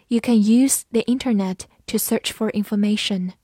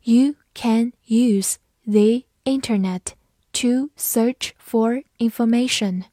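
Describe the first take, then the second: First: Said in the usual way. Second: Slow, careful read-aloud, each word clear. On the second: Shown as a demonstration. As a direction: read it slowly for learners. (慢速朗读) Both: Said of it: "好，慢读一遍。".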